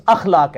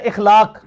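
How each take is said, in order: First: "اخلاق" starting with an a, "akhlaaq"; correct form. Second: "اخلاق" starting with an i, "ikhlaaq"; common wrong form. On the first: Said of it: "یہ لفظ اخلاق ہے". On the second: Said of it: "ہم لفظ بول رہے ہوتے ہیں". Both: Shown as a demonstration.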